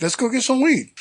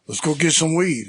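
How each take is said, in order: First: Higher-pitched, keen agreement; mock-eager quote of himself, pitched up; eager echo. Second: Said in the usual way. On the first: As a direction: echo the idea back with rising enthusiasm, then drop. Eagerly echoing the buddy's invitation.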